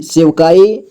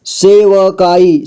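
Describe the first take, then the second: First: Said in the usual way. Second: सेवकाई slowly, with व sounded in full; syllable by syllable. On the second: Shown as a demonstration. Teacher breaking down सेवकाई for learners, slowly syllable by syllable. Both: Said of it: "जोड़ जोड़ करके".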